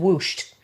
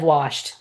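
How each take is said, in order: First: The vowel sounds like 'oo' in 'whoosh'. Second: The vowel sounds like the plain 'ah' vowel. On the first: "We say ... whooshed" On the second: "instead of washed"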